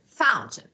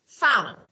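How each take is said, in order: First: The T sound is clearly pronounced in the middle. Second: The T sound is dropped in the middle. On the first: The speech is careful and formal. "T is clear" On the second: The speech is casual and fast. "This is casual"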